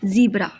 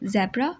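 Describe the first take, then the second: First: The first vowel is long, as in 'bee'. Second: The first vowel is short, as in 'bed'.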